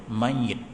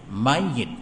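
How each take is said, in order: First: The y sound is doubled, ending in -it. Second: The y sound is doubled, ending in -it.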